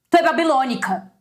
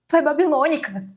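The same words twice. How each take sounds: First: It is said in an angry tone. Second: It is said in a moved, emotional tone.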